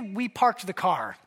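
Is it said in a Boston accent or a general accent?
general. It is said in a general American accent.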